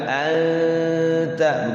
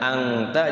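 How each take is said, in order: First: The n is a held, hidden nasal sound. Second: The n is a plain consonant, not held. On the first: The speaker calls it right. "nganggang anta begitu" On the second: The speaker calls it wrong. "jangan angta"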